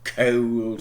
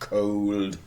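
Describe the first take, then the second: First: It is said in a non-American accent. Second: It is said in an American accent.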